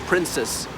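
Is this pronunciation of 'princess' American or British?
American. It is said the American way, like prince's.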